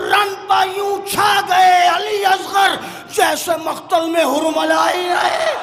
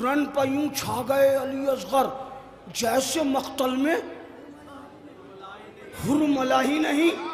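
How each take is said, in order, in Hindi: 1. यह शेर ज़ोर से और जोश के साथ पढ़ा जाता है। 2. यह शेर धीरे से और नरमी के साथ पढ़ा जाता है।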